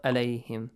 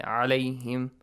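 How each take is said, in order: First: عليهم mispronounced as "aleihim" with a light hamza; hamza for ayn. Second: عليهم opening on a throaty ayn, from mid-throat; correct ayn. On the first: Teacher showing the mistake, عليهم with hamza instead of ayn. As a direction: start عليهم on a plain glottal "a", no throat squeeze. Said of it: "because it's hamza". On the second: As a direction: start عليهم with a constricted "ah" in the throat. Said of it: "the pronunciation of ayn". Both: Shown as a demonstration.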